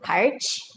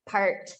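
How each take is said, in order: First: The word ends with a ch sound. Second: The word ends with a plain t sound. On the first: The speaker calls it wrong. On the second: The speaker calls it right.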